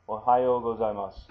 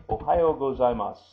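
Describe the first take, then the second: Both takes have the same delivery.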